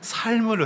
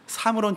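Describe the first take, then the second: First: The word is said with a rolled pronunciation. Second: The word is said plainly, without rolling. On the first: "이번엔 발음을 좀 굴려야 합니다" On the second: "삶으로는 도저히 할 수가 없어서"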